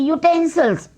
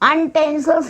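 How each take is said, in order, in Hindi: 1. शब्द की शुरुआत 'y' ध्वनि से होती है। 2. शब्द की शुरुआत सामान्य स्वर ध्वनि से होती है। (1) "उनको हम बोलते हैं यूटेंसिल्स" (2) "अनटेंसिल्स नहीं बोलते बेटा"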